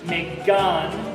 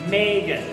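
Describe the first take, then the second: First: The stress falls on the second syllable. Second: The stress falls on the first syllable. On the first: The speaker calls it wrong. "we don't say Megan" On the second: The speaker calls it right. "we say Megan, right? That sounds better"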